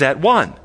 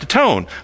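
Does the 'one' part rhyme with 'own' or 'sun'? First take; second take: sun; own. First: The second part rhymes with 'sun'. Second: The second part rhymes with 'own'. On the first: This shows the word's original meaning. "but it really means at one" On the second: This is the old sound kept in the word. "it's pronounced atone"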